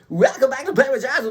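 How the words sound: It is said in a polished radio announcer voice. "My radio voice likes to come out"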